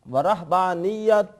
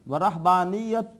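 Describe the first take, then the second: Both takes have the same delivery.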